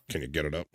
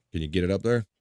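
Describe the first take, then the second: First: Much softer, lower suggestive undertone; low innuendo aside. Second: Said in the usual way. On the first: Shown as a demonstration. Host repeating the question as innuendo, hushed and low. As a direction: drop it to a quiet, low aside.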